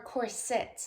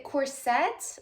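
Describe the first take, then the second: First: "corset" with the weight up front, COR-sit; "corset" stressed on COR, soft i after; stress on first syllable. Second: "corset" with the weight on its last syllable, cor-SET; "corset" stressed on SET; stress on second syllable. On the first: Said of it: "emphasis on the first syllable". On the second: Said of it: "emphasis or the accent on the second syllable". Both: Shown as a demonstration.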